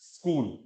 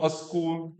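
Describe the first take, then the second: First: The word begins directly with the s sound. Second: An extra vowel is added before the s. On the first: The speaker calls it right. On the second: The speaker calls it wrong.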